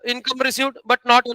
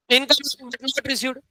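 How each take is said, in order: First: Income received but not, each word drawn out slowly for notes; slow dictation. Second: Income but not received, said very slowly and softly with weight on income; corrected phrase. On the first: Teacher dictating a definition to students, very slow. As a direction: spell it out slowly so they can write. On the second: Teacher correcting the definition for the class, slow and careful. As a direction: slowly set the right word order straight. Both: Shown as a demonstration.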